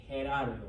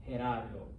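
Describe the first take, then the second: Both takes have the same delivery.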